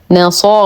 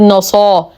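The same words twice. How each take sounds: First: نصا with a thin ن, then full emphatic صا; light ن, heavy ص. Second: نصا with the ن darkened to match the ص; wrongly heavy ن. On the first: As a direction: keep the ن of نصا light and darken only the ص. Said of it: "نرقق النون، نفخم الصاد". (ترقيق نون نصا وتفخيم الصاد) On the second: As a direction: demonstrate the mistake: emphatic, backed ن in نصا. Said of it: "وننتبه من تخليصها من التفخيم، فلا نقول". (تفخيم نون نصا خطأً) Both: Shown as a demonstration.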